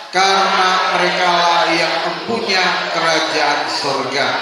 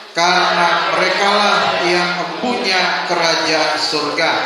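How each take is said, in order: No difference in how they are said.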